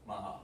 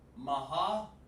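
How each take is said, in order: First: The two syllables are joined into one sound. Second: The two syllables are said as separate sounds. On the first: "It's just one sound like that" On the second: "Instead of saying maha, like that"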